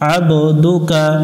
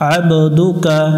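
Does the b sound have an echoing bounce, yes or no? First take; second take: yes; yes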